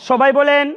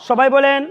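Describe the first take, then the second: The two takes are said the same way.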